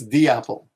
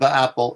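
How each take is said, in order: First: 'The' has a long, clear 'ee' vowel. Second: 'The' has a short, weak 'uh' vowel. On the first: The speaker calls it right. "before vowels, you have to pronounce it the" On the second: The speaker calls it wrong. "it's not the apple"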